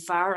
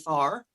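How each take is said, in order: First: The vowel is short, in a plain Irish accent. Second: The vowel is softened and lengthened. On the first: This is how the speaker naturally talks. "instead of saying far" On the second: This is a style put on for singing. "I'd say far or whatever, like um you know, soften my or lengthen my vowels"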